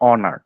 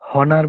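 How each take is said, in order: First: The word begins with a vowel sound. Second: The word begins with an h sound. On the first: The speaker calls it right. "আমরা কিন্তু বলছি অনার" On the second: The speaker calls it wrong. "হনার বলতেছি না"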